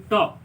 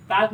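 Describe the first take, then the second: First: "टॉक" with no L at all; silent L. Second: "टाल्क", audible L before K; wrong pronunciation. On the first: Teacher giving students the correct word, टॉक with silent L. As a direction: say टॉक with aw straight into K. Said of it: "बल्कि टॉक". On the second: Teacher warning students off the misreading, टाल्क with L voiced. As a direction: say टाल्क with the L sounded. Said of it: "टाल्क नहीं पढ़ेंगे". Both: Shown as a demonstration.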